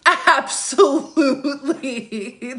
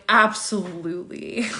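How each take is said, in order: First: High, drawn-out laughing ABSOLUTELY; laughing emphatic repeat. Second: Said in the usual way. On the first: Real, not acted. Host confirming fake relatives message her, laughing emphatically. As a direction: stretch "Absolutely" long and high through a laugh.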